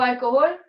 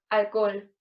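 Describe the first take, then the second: First: The final vowels are in separate syllables. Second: The final vowels merge into one syllable.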